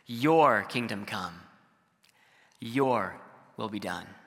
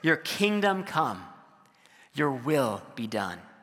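First: The stress falls on your, both times. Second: The stress falls on kingdom and will.

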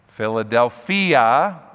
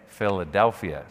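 First: It is pronounced in a Greek-sounding way. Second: It is pronounced the usual English way. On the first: "but we don't say it like that" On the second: "We say Philadelphia"

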